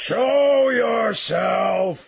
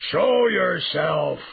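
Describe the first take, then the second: First: Full-out, very high roar, each word stretched long; beast's roar. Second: Loud, high bellowed command, drawn out; beast's roar. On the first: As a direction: roar the order at top volume, hugely drawn out. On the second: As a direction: roar the order at someone hiding. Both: A narrator's reading. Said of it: "the beast roared again".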